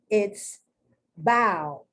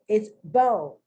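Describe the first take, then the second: First: The vowel sounds like 'ow'. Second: The vowel sounds like 'oh'. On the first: "If the O W is pronounced like the owl" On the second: "if the O W is pronounced like an O"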